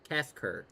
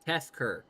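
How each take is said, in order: The two takes are said the same way.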